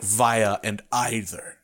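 The words are said with a British pronunciation. "the way that a British person would say it"

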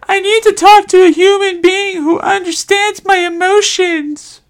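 It is read in a sassy voice.

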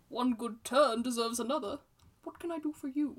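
It is said expressively, with character intonation.

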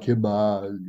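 The final S is dropped, coastal Caribbean style.

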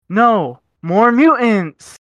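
There is a pause after the first word. There will be more mutants.

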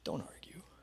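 The voice sounds soft, warm and understanding. Jesus understands and reassures him. "Or you could read it empathically"

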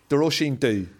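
The final word sounds like 'doo'. This is the Ulster Irish way of saying it. "Ulster Irish is Dhu"

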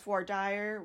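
It is said the Texas way.

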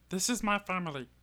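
It is said in a put-on character voice.

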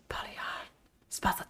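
It is whispered.

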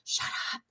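It sounds scared and fearful.

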